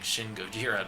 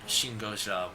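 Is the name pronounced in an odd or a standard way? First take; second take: standard; odd. First: The name is pronounced in the usual way. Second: The name is pronounced in an odd way. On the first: The speaker calls it right. "instead of saying Shin Gojira" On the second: The speaker calls it wrong. "I've been saying uh, Shin Gojira weird"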